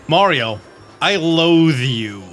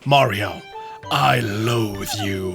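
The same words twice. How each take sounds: First: The line is said in a plainer, less evil tone. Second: The line is said in a more evil tone.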